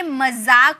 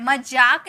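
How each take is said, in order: First: मजाक said with a clear z, məzak; teacher stresses the z sound in मजाक; correct pronunciation. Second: मजाक said with a j sound, mədʒak; wrong pronunciation shown. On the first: Spelling teacher showing students the right way, clear z in मजाक. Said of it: "ये मजाक होता है". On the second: Teacher showing students the mistake, मजाक said with j. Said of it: "मजाक नहीं होता है". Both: Shown as a demonstration.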